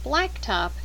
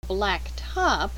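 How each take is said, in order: First: Blacktop with the weight on black, top falling away; stress on black. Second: Blacktop with top carrying the stress, as adjective plus noun. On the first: Teacher reading a compound for the listening drill, stress on black. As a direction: say Blacktop as one compound word, BLACK strong. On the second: Teacher contrasting the phrase with the compound, stress on top. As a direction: say black top as two words, hitting top. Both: Shown as a demonstration. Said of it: "circle the stressed syllables".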